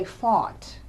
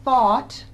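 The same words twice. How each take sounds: First: "fought" said with f in place of th; sound substitution. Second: Said in the usual way. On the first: Shown as a demonstration. Clinician showing a patient's sound swap, "fought" starting with f. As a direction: say "fought", swapping th for an f. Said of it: "individuals might substitute sounds". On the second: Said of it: "instead of saying".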